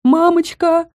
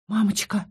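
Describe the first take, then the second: First: High, drawn-out frightened "Мамочка!"; frightened drawn-out cry. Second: Quiet drawn-out. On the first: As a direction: wail "Мамочка!" high in fear. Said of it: "протянула Хэдди". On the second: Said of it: "протянула тихо". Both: A narrator's reading.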